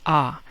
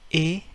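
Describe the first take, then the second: First: The letter sounds like an open 'ah'. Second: The letter sounds like a gliding 'ay'. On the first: "pronounced as A in Spanish" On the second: "the A in English"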